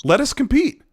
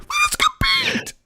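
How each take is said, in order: First: Higher-pitched imitation with a smile; smiling imitation. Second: Very high, drawn-out squeal; hammed-up squeal. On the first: Host mimicking the boss smiling in an interview, smiling. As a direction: say it with a mock smile. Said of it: "in that interview and just smiled". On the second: Host imagining a professional boss suddenly breaking out, hammed-up squeal. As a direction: squeeze it out as an absurd falsetto. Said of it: "He was just talking all professional".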